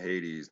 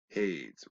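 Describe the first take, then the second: First: The word rhymes with ladies, ending in a -dies sound. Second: The word rhymes with shade, ending in a -ade sound. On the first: The speaker calls it wrong. "they call them Hades. That rhymes with ladies" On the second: The speaker calls it right. "Hades rhymes with shade"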